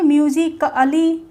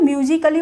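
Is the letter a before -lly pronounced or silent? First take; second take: pronounced; silent. First: The a before -lly is fully pronounced. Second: The a before -lly is left silent. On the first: The speaker calls it wrong. "ऐसे तो नहीं बोलेंगे" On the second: The speaker calls it right. "म्यूजिकली बोल रहे हैं"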